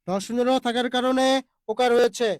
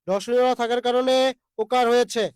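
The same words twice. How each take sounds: The two takes are said the same way.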